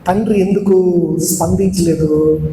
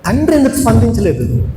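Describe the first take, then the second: First: Said in the usual way. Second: తండ్రి ఎందుకు స్పందించలేదు asked higher, pressing; preacher pressing the congregation with a rising question; emphatic question. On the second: Shown as a demonstration. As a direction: repeat it higher to drive the question home. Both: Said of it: "repeats question with emphasis".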